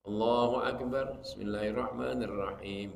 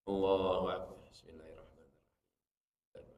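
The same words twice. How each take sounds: First: It is said a bit louder. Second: It is said softly, just audible.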